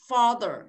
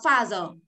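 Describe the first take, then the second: First: It is said with a native-like English accent. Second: It is said with a Vietnamese-style accent. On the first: The speaker calls it right. "cô đọc là gì?" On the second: The speaker calls it wrong. "Các bạn đọc father. Khác nhau chứ"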